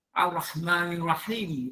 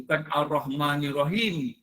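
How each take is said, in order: First: Ar-Rahmanir Rahim with the h sound dropped; wrong pronunciation demo. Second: Ar-Rahmanir Rahim with a clear h in Rahim; correct pronunciation demo. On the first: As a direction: say Rahim as if it had no h. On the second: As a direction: say Rahim with the breathy ha. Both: Shown as a demonstration.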